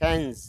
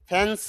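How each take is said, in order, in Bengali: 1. শব্দটি z sound দিয়ে শেষ হয়। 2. শব্দটি s সাউন্ড দিয়ে শেষ হয়। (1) "জ সাউন্ড হবে" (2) "ফ্যান্স না"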